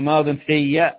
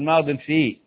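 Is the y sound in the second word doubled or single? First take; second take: doubled; single. First: The y sound in the second word is doubled. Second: The y sound in the second word is single. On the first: The speaker calls it right. "خلي بالك قلنا ماض في" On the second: The speaker calls it wrong. "ما تقرأش على تقول ماض في"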